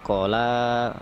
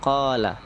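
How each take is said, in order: First: The first vowel is short, the second long. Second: The first vowel is long, the second short. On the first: The speaker calls it wrong. "Jangan kita baca terbalik. Qala itu kurang tepat" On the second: The speaker calls it right. "Qawnya panjang, la-nya pendek"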